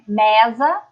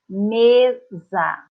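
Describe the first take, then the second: First: The e is said with an open sound. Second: The e is said with a closed sound. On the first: The speaker calls it wrong. "eu não falo mesa" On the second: The speaker calls it right. "Com um som fechado"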